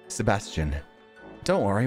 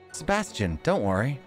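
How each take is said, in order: First: It is said in the speaker's normal voice. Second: It is said in a high put-on voice.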